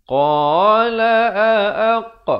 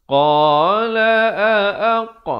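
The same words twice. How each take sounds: No difference in how they are said.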